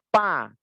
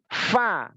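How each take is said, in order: First: Both lips close, giving a p sound. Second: Lip touches teeth, giving an f sound. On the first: The speaker calls it wrong. "bibir bawah nempel seperti pa" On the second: The speaker calls it right. "Yang benar itu fa bukan pa"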